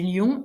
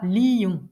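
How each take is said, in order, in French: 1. Le mot se prononce en une syllabe. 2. Le mot se prononce en deux syllabes. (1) "j'ai neuf pieds" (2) "on le prononcera lion"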